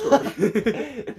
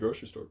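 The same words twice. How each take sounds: First: It is said in a mocking, condescending tone. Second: It is said in a plain, ordinary tone. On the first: Someone is teasing the speaker as a joke. "we'll like repeat it, but like in a in a condescending like joking tone" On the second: Someone is simply telling what they did. "someone could be like"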